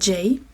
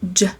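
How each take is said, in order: First: The letter is said as its alphabet name. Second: The letter is said as its short reading sound. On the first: The speaker calls it wrong. "c'est pas J comme on dit dans l'alphabet normalement" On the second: The speaker calls it right. "c'est J"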